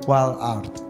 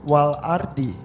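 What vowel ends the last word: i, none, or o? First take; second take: none; i. First: The word ends on a consonant, no vowel. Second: The word ends with an i vowel. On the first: "Walaupun dibacanya wal ard" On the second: "Tapi harusnya wal ardi"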